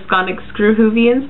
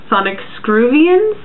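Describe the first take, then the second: First: An extra h syllable follows screw before -vians. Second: Screw runs straight into -vians, with no h syllable. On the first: "instead of" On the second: "I kind of thought it would be pronounced like"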